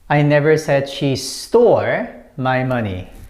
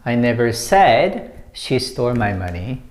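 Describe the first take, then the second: First: The word stole carries the main stress. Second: The word said carries the main stress. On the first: She has the money but did not steal it. "When you put emphasis on this one" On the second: It was only implied, never put into words. "when you put emphasis on said"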